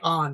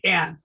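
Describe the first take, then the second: First: The vowel is an open 'ah' sound. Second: The vowel is a short 'a' sound. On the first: The speaker calls it wrong. "Don't say on" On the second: The speaker calls it right. "short A"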